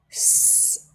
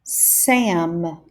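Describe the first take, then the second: First: "S-am" with long s, drawn out; stretched out. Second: "Sam" short and quick; said fast. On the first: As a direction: stretch "S-am" slowly. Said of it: "stretch out the sounds". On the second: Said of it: "then say the word fast". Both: Shown as a demonstration.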